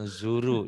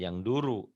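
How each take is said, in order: First: The middle consonant is a z sound. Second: The middle consonant is a d sound. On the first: The speaker calls it right. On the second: The speaker calls it wrong. "Jangan yang duru. ... itu orang Sunda"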